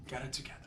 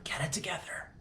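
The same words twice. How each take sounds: First: Softer self-scolding. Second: High, whispered, hammed-up teary plea of "Get it together"; mock tearful whisper. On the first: Pretend. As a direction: mutter "Get it together" quietly to yourself. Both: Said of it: "I'm so emotional".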